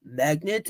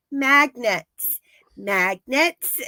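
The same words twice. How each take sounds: First: Lower, baffled question; lightly voiced confused repeat; puzzled echo. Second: Pressing the word, mildly insistent; lightly voiced urging. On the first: Russian echoing Joyce, lower and puzzled. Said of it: "And he's like". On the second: Joyce urging the Russian, mildly insistent. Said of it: "she's like".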